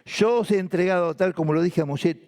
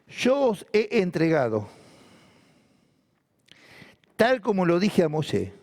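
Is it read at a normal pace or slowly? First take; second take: normal; slowly. First: It is read at a normal pace. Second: It is read noticeably more slowly.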